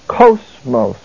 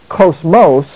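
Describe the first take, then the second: First: The stress is on the first syllable. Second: The stress is on the second syllable. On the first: The speaker calls it right. "but cosmos, the emphasis placed over the syllable omicron" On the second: The speaker calls it wrong. "It's not cosmos"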